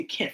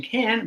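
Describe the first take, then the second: First: "can't" cut off by a final T. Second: "can" with no T at the end; can without final T. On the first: Teacher contrasting two words for students, "can't" with final T. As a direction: say "can't" with a T closing it. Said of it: "but I say can't". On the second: Teacher contrasting two words for students, "can" with no final T. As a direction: say "can" ending on the N. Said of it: "I'm not saying can". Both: Shown as a demonstration.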